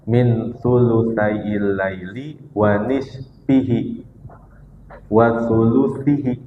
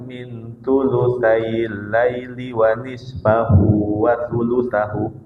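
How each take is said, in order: First: The endings are read with i vowels. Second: The endings are read with a-u vowels. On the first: The words attach to 'thuluthay'. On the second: The words attach to 'adna'.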